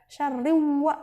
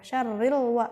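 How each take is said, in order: First: The l sound is dropped before wa. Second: The l sound is clearly heard before wa. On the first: The speaker calls it wrong. "Jadi nggak boleh dibaca syarriwa, nggak boleh" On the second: The speaker calls it right. "lamnya harus dibaca jelas gitu"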